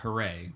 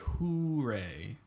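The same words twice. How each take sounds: First: It sounds like one smooth word, 'hooray'. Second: It sounds split, like the two words 'who Ray'. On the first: The speaker calls it right. "which is the right way to say it" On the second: The speaker calls it wrong. "It makes me think of you asking me who is Ray"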